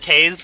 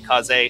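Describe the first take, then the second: First: The name is said as one syllable. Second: The name is said as two syllables. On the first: The speaker calls it wrong. "I'm pretty sure I'm saying it wrong" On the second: The speaker calls it right. "the developers of the game have confirmed that it is supposed to be Kaze"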